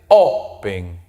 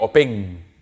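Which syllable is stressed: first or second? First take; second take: first; second. First: The stress is on the first syllable. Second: The stress is on the second syllable. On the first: The speaker calls it right. "En la primera sílaba, adelante" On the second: The speaker calls it wrong. "Yo no digo open"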